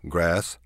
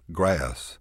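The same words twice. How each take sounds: First: Said in the usual way. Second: "grass" stretched long with a lilt; Texas drawl. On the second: Shown as a demonstration. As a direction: drawl "grass" as "gra-ass". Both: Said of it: "stretch our vowels out and put a lilt".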